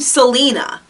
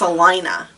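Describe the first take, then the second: First: It sounds like the personal name Selena. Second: It does not sound like the name Selena. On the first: "like the name Selena" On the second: "but it's pronounced Salina"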